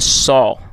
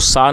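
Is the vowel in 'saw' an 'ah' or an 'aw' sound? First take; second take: aw; ah. First: The vowel is a rounded 'aw' sound. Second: The vowel is an open 'ah' sound. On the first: The speaker calls it right. "इससे आपको सॉ पढ़ना है" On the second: The speaker calls it wrong. "जो कि गलत pronunciation है"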